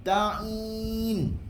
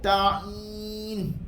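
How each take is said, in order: Both takes have the same delivery.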